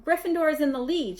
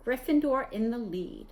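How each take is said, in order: First: Gryffindor shrieked high and loud; excited shriek. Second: Said in the usual way. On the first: A narrator's reading. Hermione shrieking the score to Ron, excited. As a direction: cry Gryffindor out in joy. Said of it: "shrieked Hermione".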